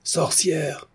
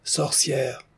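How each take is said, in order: First: High-pitched voice calling out, falling; shrill cry. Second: High but muted crowd echo; softer raised cry, falling at the end; mob repeating. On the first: Voice from the back rows accusing, shrill cry. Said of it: "cria une voix aiguë". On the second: Advancing crowd repeats the accusation, crying out. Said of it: "La masse s'avança de deux pas en répétant". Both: A narrator's reading.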